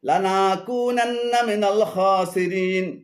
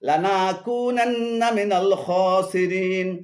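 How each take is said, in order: No difference in how they are said.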